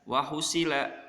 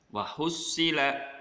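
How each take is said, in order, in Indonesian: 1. Bunyi s pendek dan tunggal. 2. Bunyi s ditahan panjang dan ditekan. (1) "Gak boleh dibaca wahusila" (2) "huruf sod yang bertasydid artinya sodnya menjadi dua"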